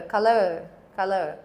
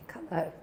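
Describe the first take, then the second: First: Color, with the stress on the first syllable; accent on the lower. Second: Said in the usual way. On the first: Shown as a demonstration. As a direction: put the weight on the start of color. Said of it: "your accent is on the lower". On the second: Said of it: "pretty much the same".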